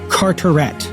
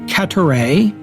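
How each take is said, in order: First: The name is said with an English-style pronunciation. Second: The name is said with a French-style pronunciation. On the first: The speaker calls it right. "So pronounced in English, not in French" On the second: The speaker calls it wrong. "as I've been calling him"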